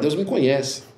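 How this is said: It is said in a fearful, humbled tone. Being known by God is a cause for fear. The speaker calls it right. "Você deve falar assim, ih, rapaz"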